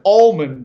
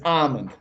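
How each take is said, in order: First: The L sound is clearly pronounced. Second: The L sound is left silent. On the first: The speaker calls it wrong. "he's like almond with an L" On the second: The speaker calls it right. "That's the right way to say it"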